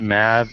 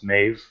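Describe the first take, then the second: First: The name is said with a short vowel. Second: The name is said with a long vowel. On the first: The speaker calls it wrong. "when people pronounce it Mav" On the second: The speaker calls it right. "it's pronounced Mave according to the Gaelic"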